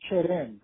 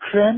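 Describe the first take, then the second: First: The word has a Persian-style pronunciation. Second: The word has a French-style pronunciation. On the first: This is how speakers actually say it. "میگیم کرم" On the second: This is not how speakers actually say it. "کرم نمیگیم"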